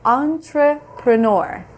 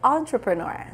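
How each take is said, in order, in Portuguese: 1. A palavra é dita devagar e com cuidado. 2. A palavra é dita em velocidade normal. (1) "Vamos lá mais devagarinho" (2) "In English we say entrepreneur"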